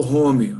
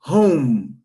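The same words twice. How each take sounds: First: "home" in two syllables, as "homi"; wrong Brazilian home. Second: "home" as one syllable with a held final M; home ending in M. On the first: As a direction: add an i after the M in "home". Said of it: "não falo home". ("home" à brasileira, com um i no final, "homi") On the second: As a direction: close "home" on a humming M, no i after it. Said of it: "acaba com M". ("home" terminando com M, sem i no final) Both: Shown as a demonstration.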